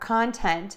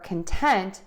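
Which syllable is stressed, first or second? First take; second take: first; second. First: The stress is on the first syllable. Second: The stress is on the second syllable. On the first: It is a noun meaning subject matter. "which is a noun meaning subject matter" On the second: It is a verb meaning satisfied. "a verb meaning satisfied"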